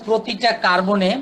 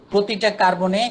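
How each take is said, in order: Both takes have the same delivery.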